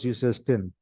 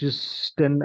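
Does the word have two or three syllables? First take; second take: three; two. First: An extra vowel separates the s from the ending. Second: The s runs straight into the ending, no vowel. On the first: The speaker calls it right. "For the clarity of pronunciation" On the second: The speaker calls it wrong. "ऐसे नहीं बोल सकते ना"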